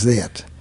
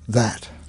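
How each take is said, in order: First: The vowel has the shifted regional pronunciation. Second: The vowel has the standard short a sound. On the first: "Come out as that" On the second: "the vowels that are spelled with the short A, as in that"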